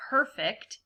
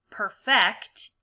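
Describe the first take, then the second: First: Perfect with PER stressed, the non-verb way; stress on first syllable. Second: Perfect with FECT stressed, as a verb; stress on second syllable. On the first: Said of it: "the other way you can pronounce this word". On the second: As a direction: say perfect as per-FECT, leaning on the end. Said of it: "try to use the words as a verb". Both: Shown as a demonstration.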